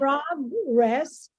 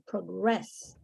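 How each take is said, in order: First: The stress is on the first syllable. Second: The stress is on the second syllable. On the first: It is used as a noun. "the accent would be in the first syllable, that's the noun" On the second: It is used as a verb. "the accent would be in the second syllable"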